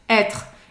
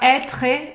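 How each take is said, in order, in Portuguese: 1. A palavra termina no som de R. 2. A palavra termina em vogal depois do R. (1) "A pronúncia dele termina no R" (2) "você não vai falar être"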